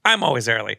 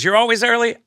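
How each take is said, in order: First: "I'm always early", leaning on "I'm" as a statement; stress on I'M. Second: High, loud, incredulous "You're always early?"; retold astonished question, pitched well up and louder; surprised question. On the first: Retold or imitated. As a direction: echo it back as an assertion, "I'm" stressed and pitch settling. Acted answer echoing her own question. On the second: Acted quote, surprised question answered.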